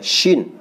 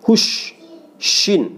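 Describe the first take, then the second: First: Said in the usual way. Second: Shin with lips pushed forward; wrong pursed shin. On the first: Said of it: "nggak boleh". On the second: Shown as a demonstration. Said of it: "Nah, itu nggak boleh ya".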